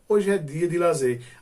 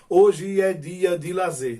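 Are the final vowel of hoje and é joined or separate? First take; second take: joined; separate. First: The vowels of hoje and é merge together. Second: The vowels of hoje and é stay separate. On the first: The speaker calls it right. "a gente diz assim ... quando nós fazemos a elisão" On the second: The speaker calls it wrong. "oralmente ninguém diz assim"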